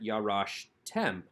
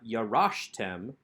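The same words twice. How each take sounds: First: The stress falls on the final syllable. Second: The stress falls before the final syllable. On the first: The speaker calls it right. "we can take the accent onto that final syllable, tem" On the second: The speaker calls it wrong. "So not"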